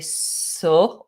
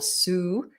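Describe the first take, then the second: First: The syllable has a full 'oh' vowel. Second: The syllable has a full 'u' vowel. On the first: "we don't say so" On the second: "or su"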